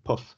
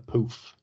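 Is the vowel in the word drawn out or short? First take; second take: short; drawn out. First: The vowel is short and clipped. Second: The vowel is long and drawn out. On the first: The speaker calls it right. "it's a puff" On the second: The speaker calls it wrong. "drag out those O's like he does"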